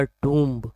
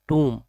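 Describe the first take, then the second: First: टूम्ब with the final b sounded; common mispronunciation. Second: टूम्ब said as "toom", ending on m; silent b. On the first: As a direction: say टूम्ब wrongly as "toomb". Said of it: "इसे अक्सर pronounce करते हैं". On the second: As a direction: drop the b at the end of टूम्ब. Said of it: "इसमें बी silent है". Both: Shown as a demonstration.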